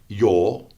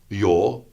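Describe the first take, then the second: Both takes have the same delivery.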